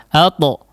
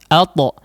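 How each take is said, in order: No difference in how they are said.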